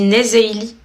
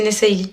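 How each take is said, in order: First: The middle consonant is a voiced z sound. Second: The middle consonant is a voiceless s sound. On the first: This is how standard French spelling rules would read it. "un S entre deux voyelles, ça fait quoi? ... Ça se dit Nezeili" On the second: This is the pronunciation the brand owner chose. "vous dites à tout le monde, c'est Nessayli ... avec deux S"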